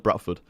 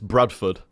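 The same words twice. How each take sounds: First: The first syllable ends in a t sound. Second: The first syllable ends in a d sound. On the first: "but I always call it Bradford" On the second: "it's Bradford"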